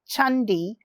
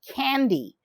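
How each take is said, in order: First: The word begins with a ch sound. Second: The word begins with a k sound. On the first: The speaker calls it right. "it's pronounced as Chandi" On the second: The speaker calls it wrong. "not Candy"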